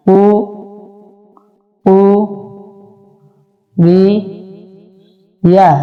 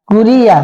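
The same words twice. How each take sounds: First: Slow, each syllable broken apart with pauses. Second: কুরিয়া said as one quick word, syllables joined; quick joined reading. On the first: Teacher spelling কুরিয়া slowly for students, syllable by syllable. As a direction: spell কু রি ইয়া out one piece at a time. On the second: Teacher showing students the fast joined কুরিয়া. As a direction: run কুরিয়া together in one breath. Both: Shown as a demonstration. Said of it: "হরকতের উচ্চারণ তাড়াতাড়ি করতে হয়".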